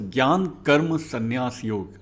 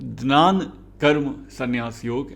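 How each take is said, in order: First: The first word begins with a gy sound. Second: The first word begins with a gn sound.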